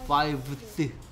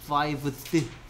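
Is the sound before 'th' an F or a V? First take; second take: V; V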